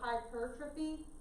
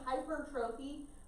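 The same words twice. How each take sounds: First: The word is said with its standard pronunciation. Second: The word is said the way it looks written. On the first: The speaker calls it right. "hypertrophy is how you're technically supposed to say it" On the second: The speaker calls it wrong. "it looks like hypertrophy. Please don't say it like that"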